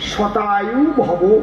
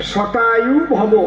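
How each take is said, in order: The two takes are said the same way.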